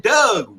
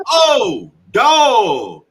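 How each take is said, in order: First: Higher, louder "Doug", as Baltimore says dog; Baltimore pronunciation. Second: Loud, high, drawn-out realization on "dog"; standard pronunciation. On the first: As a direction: say "Doug" with a short UH vowel, meaning dog. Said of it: "you say Doug". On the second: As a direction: say "dog" with a long open AW. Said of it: "No, bro, you say Doug". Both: Retold or imitated.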